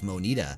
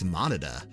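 First: The name does not sound like 'monitor'. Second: The name sounds like the word 'monitor'. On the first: The speaker calls it wrong. "I think I've been saying it wrong all this time" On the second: The speaker calls it right. "like a monitor"

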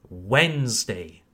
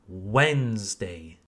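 Both takes have the same delivery.

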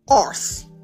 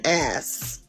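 First: It is said in a put-on Scottish accent. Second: It is said in the speaker's usual accent.

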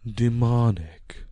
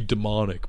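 First: It is said in a dramatic put-on voice. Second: It is said in the speaker's natural voice.

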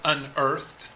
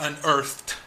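First: The final -ed ending is blurred or dropped. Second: The final -ed ending is clearly pronounced. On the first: The speaker calls it wrong. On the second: The speaker calls it right.

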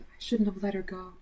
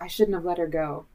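First: It is said in a longing, wistful way. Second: It is said in a dark, ominous way. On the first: It expresses regret over lost love. "She's the one that got away" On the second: It hints at a threat to come. "It's a little foreshadowing"

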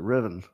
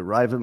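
First: The first syllable does not sound like 'drive'. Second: The first syllable sounds like 'drive'. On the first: "or is it Rivian?" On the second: "Is it Riven like driving?"

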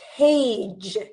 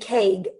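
First: The word ends with a soft j sound. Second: The word ends with a hard g sound. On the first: The speaker calls it right. "it has the j sound" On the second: The speaker calls it wrong. "We don't say cage"

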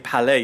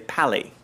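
First: The word is pronounced the French way. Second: The word is pronounced the anglicized English way. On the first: The speaker calls it wrong. "you don't say Palais" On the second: The speaker calls it right. "you say Pally"

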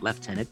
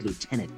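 First: The word is said with a non-American pronunciation. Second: The word is said with the American pronunciation. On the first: The title belongs to a non-American army. The speaker calls it wrong. "not lieutenant" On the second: The title belongs to the United States army. The speaker calls it right. "I said lieutenant, because he is U.S. Army retired"

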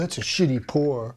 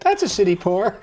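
First: It is said in an angry, harsh tone. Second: It is said in a sweet, polite tone. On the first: The speaker is upset about the pour. "Why be that angry about that?" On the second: The speaker is gently remarking on the pour. "Maybe their tone is more like"

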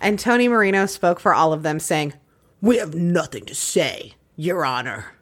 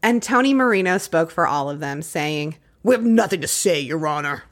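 First: It is said slowly, words dragged out. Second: It is said at a normal pace.

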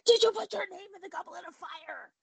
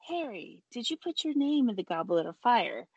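First: The question is asked loudly and angrily. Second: The question is asked softly and calmly.

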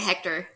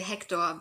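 First: The name is pronounced with English sounds. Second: The name is pronounced with German sounds. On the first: "but you can say Hector" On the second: "in German you would say Hector"

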